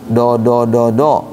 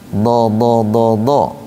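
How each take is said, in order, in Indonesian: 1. Konsonan itu dibuat dengan depan lidah. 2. Konsonan itu dibuat dengan sisi lidah. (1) "bukan do do do do ... Di depan tuh dal itu" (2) "Dia ditempelkan ke gusi geraham atas"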